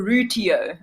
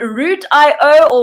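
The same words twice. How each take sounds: First: "Rootio" run together as "ROO-tee-oh"; "Rootio" as a single blended word; pronunciation as one word. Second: "Root I O" said as root, then letters I and O; pronunciation with spelled-out ending. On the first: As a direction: say "Rootio" with "ee-oh", not letter names. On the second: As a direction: say "Root I O" as "root eye-oh". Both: Shown as a demonstration. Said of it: "is it Root I O or Rootio".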